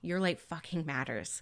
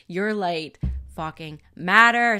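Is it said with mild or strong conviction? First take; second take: mild; strong. First: It is said with mild conviction. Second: It is said with strong conviction.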